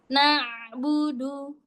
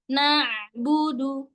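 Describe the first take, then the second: Both takes have the same delivery.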